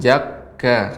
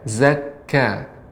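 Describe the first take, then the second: First: The word begins with a j sound. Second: The word begins with a buzzing z sound. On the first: The speaker calls it wrong. "Jangan jakka" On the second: The speaker calls it right. "untuk kaf Ibu, zakka"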